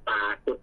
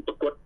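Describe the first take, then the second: First: ปรากฏ with a long "aa" before "kot"; long first vowel. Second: ปรากฏ with a quick short "a" before "kot"; short first vowel. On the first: Teacher shows the original form, long vowel in ปรากฏ. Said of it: "เพี้ยนจากปรากฏเป็นปรากฏ". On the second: Teacher shows how fast speech changes it, short vowel in ปรากฏ. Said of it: "เป็นเสียงสั่น". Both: Shown as a demonstration.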